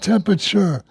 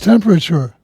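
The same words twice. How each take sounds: First: It is squeezed into tem-a-cher. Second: All four syllables are said in full. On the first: The speaker calls it wrong. "Like T E M A C H E R" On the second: The speaker calls it right. "it's a four syllable word"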